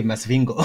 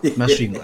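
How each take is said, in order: First: Mock outsider's "Masvingo", mas-VING-go in an English accent; "Masvingo" read as spelt by an English speaker; anglicised pronunciation. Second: "Masvingo" as locals say it, sv blended into one sound; local pronunciation. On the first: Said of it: "I can't say". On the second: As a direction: say "Masvingo" with the Shona whistled sv, close to "sh". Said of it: "I must say". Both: Shown as a demonstration.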